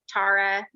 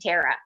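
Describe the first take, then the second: First: The name is pronounced the Irish way. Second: The name is pronounced a non-Irish way. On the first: "the way that it's pronounced in Ireland" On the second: "And yet, he and my mom were the very first ones to turn around and call me Tara"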